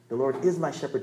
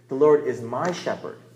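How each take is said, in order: First: The word 'is' carries the stress. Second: The word 'my' carries the stress. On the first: It is true now, not only in the past. "not used to be my shepherd" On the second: He is the shepherd of me personally, not only of others. "not just the shepherd of that guy down the road"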